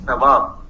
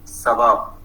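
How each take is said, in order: First: The word begins with a th sound. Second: The word begins with an s sound. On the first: "th is replaced with s" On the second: "we say sawab"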